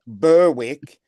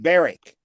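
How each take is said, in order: First: The word is said as it is spelled. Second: The word is said shortened, unlike its spelling. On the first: "spelled Berwick" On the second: "but pronounced Berwick"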